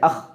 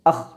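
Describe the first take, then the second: First: The breath is cut off short. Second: The same.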